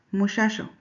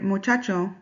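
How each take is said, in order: First: "muchacho" with each ch softened to sh; Chihuahua sh. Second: Said in the usual way. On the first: Shown as a demonstration. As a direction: say "muchacho" as moo-SHAH-sho. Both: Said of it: "people pronounce the ch as sh".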